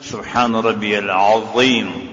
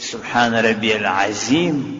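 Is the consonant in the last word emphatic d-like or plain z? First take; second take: emphatic; plain z. First: The last word has an emphatic d-like consonant. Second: The last word has a plain z consonant. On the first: The word means great. The speaker calls it right. "ضا ده" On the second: The word means a great enemy. The speaker calls it wrong. "دا ضا کې په زی وویل لمنځ فاسد"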